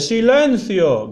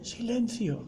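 First: The word is shouted loudly and forcefully. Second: The word is said quietly and calmly.

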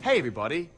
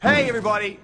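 First: It is said at a moderate volume. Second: It is yelled very loudly.

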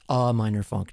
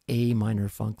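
First: The first word is a weak 'uh' sound. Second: The first word is the letter name A. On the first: It is a funk that is a gloomy mood. The speaker calls it right. "it's A Minor Funk, ... It's like a mood" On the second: It is a funk song in the key of A minor. The speaker calls it wrong. "not A Minor Funk, ... the way a musician would pronounce it"

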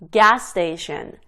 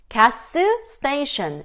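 First: The s sound is pronounced only once. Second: The s sound is pronounced twice. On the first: The speaker calls it right. "스 발음 죽이는 거죠" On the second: The speaker calls it wrong. "이게 아니라"

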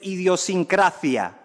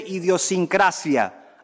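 First: The word ends with a th-like sound. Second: The word ends with an s sound. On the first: The speaker calls it wrong. "no se dice idiosincrasia" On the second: The speaker calls it right. "se dice idiosincrasia, aunque usted persiga el seseo"

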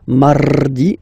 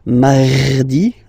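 First: The R is rolled with the tongue. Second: The R is deep and strong in the throat. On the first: "You don't move your tongue, so it doesn't sound like mardi, no" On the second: "You don't need to go too deep like mardi, no"

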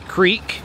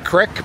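First: Creek is said the usual non-Philadelphia way. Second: Creek is said the local Philadelphia way. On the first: The speaker is not from Philadelphia. "You may say creek. That means you're not from Philadelphia" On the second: The speaker is from Philadelphia. "Don't know why we say creek, but we do. And we know it's wrong"

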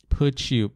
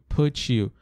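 Both takes have the same delivery.

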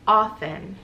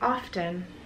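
First: The T in the middle is silent. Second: The T in the middle is sounded. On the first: The speaker calls it right. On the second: The speaker calls it wrong. "I'm saying the word often wrong"

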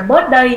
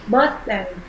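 First: The th sound is not clearly pronounced. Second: The th sound is clearly pronounced. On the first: The speaker calls it wrong. "không phải là birthday nhá" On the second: The speaker calls it right. "Cái từ này mình phải đọc rõ chữ thờ ra một từ"

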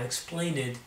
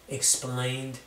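First: The ending is said as an extra syllable. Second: The ending adds no extra syllable. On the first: The speaker calls it wrong. "not explained" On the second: The speaker calls it right. "We're not making more syllables"

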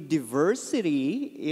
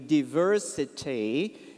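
First: The word is said in an American accent. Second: The word is said in a British accent. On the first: "It would be diversity if it would be American" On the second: "diversity if it would be Harry Potter"

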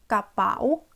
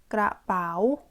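First: The word starts with a plain k sound. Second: The word starts with a full kr cluster. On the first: This is how it is heard in everyday speech. "까바오 이렇게 들리거든요" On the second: This is the careful, standard form. "가방, 그라바오"

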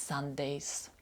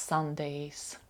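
No difference in how they are said.

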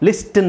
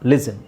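First: The t sound is pronounced in the middle. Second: The t sound is silent in the middle. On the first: The speaker calls it wrong. "ಲಿಸ್ಟನ್ ಅಂತ ಹೇಳಲ್ಲ" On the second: The speaker calls it right. "ಇಲ್ಲಿ ಟಿ silent ಆಗುತ್ತೆ"

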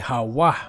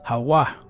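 First: The middle consonant is a w sound. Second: The same.

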